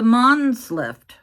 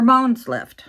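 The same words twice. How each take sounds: First: "Mons" said like "monz", with an ah; "Mons" rhyming with "bronze"; Mons with short open vowel. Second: "Mons" said like "moans", louder; rounded "oh" in the middle of "Mons"; Mons with long O. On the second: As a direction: say "Mons" to rhyme with "bones". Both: Shown as a demonstration. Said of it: "I don't know how to pronounce that".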